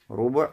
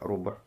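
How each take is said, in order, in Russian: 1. После звука b идёт гласный u. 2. После звука b гласного нет. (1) "с даммой второй буквы" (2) "с сукуном второй буквы"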